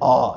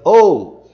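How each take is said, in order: First: It is said as a short open Portuguese vowel. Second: It is said as a gliding English vowel. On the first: The speaker calls it wrong. "Eles não dizem ó" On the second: The speaker calls it right. "eles dizem O"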